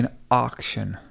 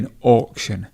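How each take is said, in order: First: The first vowel sounds like 'ar'. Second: The first vowel sounds like 'or'. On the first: "the A U sound is often pronounced R" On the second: "in British English, you might say or"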